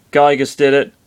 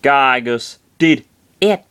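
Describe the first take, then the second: First: Said in the usual way. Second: Slow, spaced out, GYGUS and DID weighted; "Gygus... did... it", drawn out word by word; stress on GYGUS and DID. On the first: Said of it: "said all at once". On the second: Acted. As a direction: punch Gygus, then did, pause before it. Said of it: "Gygus and did are capitalized".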